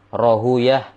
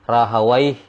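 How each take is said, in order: First: The name ends with an 'uyah' sound. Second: The name ends with an 'awaih' sound. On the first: This is the language scholars' reading. The speaker calls it right. "ulama lugo nahu itu membaca dengan" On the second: This is the hadith scholars' reading. The speaker calls it wrong. "Kalau ahli hadis membaca"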